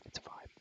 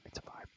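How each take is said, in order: Both takes have the same delivery.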